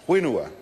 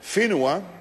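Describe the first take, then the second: First: The word begins with a W sound. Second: The word begins with an F sound. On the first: "they actually dropped the H out of there, and instead it's pronounced whenua" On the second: "spelt with a W H and pronounced with an F"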